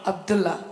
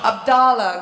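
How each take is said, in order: First: "Abdullah" said ab-DOOL-lah, short oo vowel and a held l; "Abdullah" the Bombay way, oo sound in the middle; her own Abdullah. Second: "Abdallah" said ab-DAH-lah, open a in the middle; copying his Abdallah. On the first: Actress gets a fan's name her way first, oo vowel. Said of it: "No, no, I'm gonna". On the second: Actress proudly repeats the fan's own name, open a. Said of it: "I can do the accent really well". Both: Shown as a demonstration.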